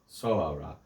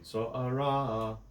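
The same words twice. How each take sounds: First: The stress is on the first syllable. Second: The stress is on the second syllable. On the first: The speaker calls it wrong. "on the first, on the third to last syllable" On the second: The speaker calls it right. "I think it should be soara"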